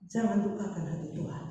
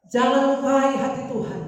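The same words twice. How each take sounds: First: Said in the usual way. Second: Loud, high preaching cry; raised, urgent sermon shout; forceful exhortation. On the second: Real, not acted. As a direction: drive the warning home at full voice. Repeats it forcefully to congregation.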